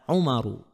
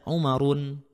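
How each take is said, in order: First: The name ends in a plain -u vowel. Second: The name ends in -un with a final n. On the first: The speaker calls it right. "contohnya ada Umaru" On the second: The speaker calls it wrong. "nggak boleh dibaca Umarun"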